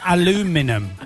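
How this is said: The word is said with four syllables, ending in '-num'. This is the American way of saying it. "They say aluminum"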